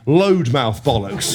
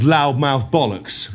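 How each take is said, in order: First: "loadmouth" with LOAD like a lorry's load; mocking misspelling. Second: LOUDMOUTH said normally, with the "ow" vowel; intended word. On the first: Teller mocks Ronnie's misspelt hashtag, misread word sounded out slowly. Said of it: "he wrote, he wrote hashtag". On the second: Teller reveals what Ronnie meant to write, intended word spoken slowly. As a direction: say "loudmouth" properly, drawn out slowly. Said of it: "what he wanted to write was". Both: Shown as a demonstration.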